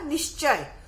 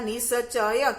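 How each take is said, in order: First: The s sound is half, joined to the next consonant. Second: The s sound is full, with its own vowel. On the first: The speaker calls it right. "स की ध्वनि कैसी निकलती है? आधी" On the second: The speaker calls it wrong. "इसका उच्चारण होगा निश्चय, क्योंकि स पूरा लिखा हुआ है"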